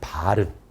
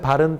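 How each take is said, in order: First: The vowel in bal is long. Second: The vowel in bal is short. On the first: It means a screen blind. "이 발은 장음입니다" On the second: It means a foot. "사람의 발은 단음이지만"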